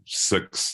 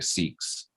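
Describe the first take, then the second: First: The vowel is said in a New Zealand accent. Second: The vowel is said in an Australian accent. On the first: "we say number six" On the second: "They say six"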